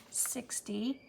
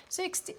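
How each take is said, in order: First: Said in the usual way. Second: Surprised. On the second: Real, not acted. Recount lands on surprise total.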